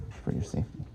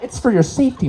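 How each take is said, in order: First: Hushed whispered echo of the line; ghostly whispered repeat. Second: Voiced, higher, laughing take; chuckling official reassurance; mock official. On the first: Acted. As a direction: breathe it out like a creepy secret. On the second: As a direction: say it brightly, half laughing. First spoken take.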